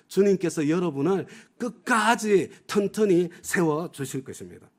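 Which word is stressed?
끝까지 튼튼히. The stress is on 끝까지 튼튼히.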